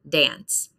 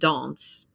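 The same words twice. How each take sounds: First: The vowel sounds like the 'a' in 'an'. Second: The vowel sounds like the 'o' in 'on'. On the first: "so we pronounce it an" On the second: "it's pronounced like the word on"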